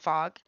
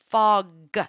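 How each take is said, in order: First: The word is said fast with the final G blurred. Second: The word is said slowly with a clear final G. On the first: The speaker calls it wrong. "when you're saying it fast" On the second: The speaker calls it right. "there's a big difference"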